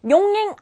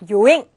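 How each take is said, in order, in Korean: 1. 가운데에 n 소리가 있어요. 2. 가운데에 n 소리가 없어요.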